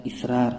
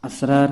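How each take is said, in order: First: اسرار said "israr", opening on short i; zer on alif. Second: اسرار said "asrar", opening on short a; correct pronunciation. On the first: Teacher contrasting the other word, اسرار as "israr". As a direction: say اسرار with an i at the start. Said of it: "الف کے زیر کے ساتھ". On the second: Teacher showing the word for secrets, اسرار as "asrar". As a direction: say اسرار with an a at the start. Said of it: "یہ صحیح تلفظ ہے". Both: Shown as a demonstration.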